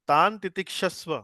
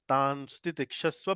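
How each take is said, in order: First: It is said without an s before titikshasva. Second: A light s sound comes before titikshasva.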